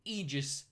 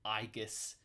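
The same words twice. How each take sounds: First: Aegis is said with the usual English pronunciation. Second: Aegis is said with an ancient Greek pronunciation.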